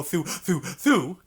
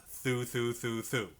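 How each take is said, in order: First: THROUGH repeated with a gasp after each; breath between notes. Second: Low, soft THROUGHs joined on a single breath; one breath. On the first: Teacher showing students what not to do, breathy gaps between THROUGHs. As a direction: chop the THROUGHs apart with quick breaths. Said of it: "Don't breathe in between". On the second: Teacher correcting the breathing mistake, THROUGHs connected in one breath. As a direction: run each THROUGH into the next without breathing. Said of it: "One breath". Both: Shown as a demonstration.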